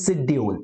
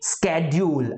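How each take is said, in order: First: It is said in a British accent. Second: It is said in an American accent.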